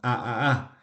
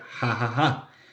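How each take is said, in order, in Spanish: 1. Cada sílaba empieza directamente con la vocal. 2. Cada sílaba empieza con un sonido aspirado en la garganta. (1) "nos reímos con a a a" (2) "se pronuncia ja ja ja"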